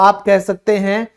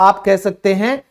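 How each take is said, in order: Both takes have the same delivery.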